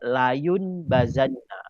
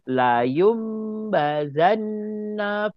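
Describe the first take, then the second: First: An n sound comes before the b. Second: An m sound comes before the b. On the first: "Asal dia bunyi dia layun bazanna" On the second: "jadi baca dia"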